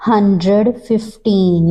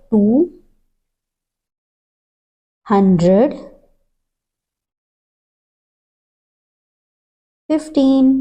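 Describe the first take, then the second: First: Said in the usual way. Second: Slow dictation. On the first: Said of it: "teacher reads number". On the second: Shown as a demonstration. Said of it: "teacher dictates slowly, word by word".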